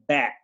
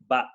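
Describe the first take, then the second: First: The vowel sounds like 'eh'. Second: The vowel sounds like 'uh'. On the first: The speaker calls it right. "the sound with diagraph is eh, eh. So that's why we say bat" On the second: The speaker calls it wrong. "We don't say but"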